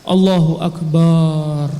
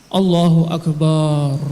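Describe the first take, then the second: No difference in how they are said.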